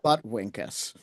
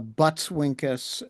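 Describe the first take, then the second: First: No s sound follows 'Butt' in the name. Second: An s sound follows 'Butt' in the name. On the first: The speaker calls it wrong. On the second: The speaker calls it right. "the butts in Buttwinkus is plural"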